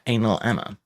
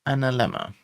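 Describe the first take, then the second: First: It is split into two separate words. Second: It is joined together as one word.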